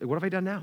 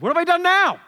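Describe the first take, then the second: First: It is said in a gentler, milder tone. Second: It is said in a harsh, sharp tone. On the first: The speaker calls it right. "He said it probably nicer than that" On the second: The speaker calls it wrong. "Probably didn't say it like that, okay? He said it probably nicer than that"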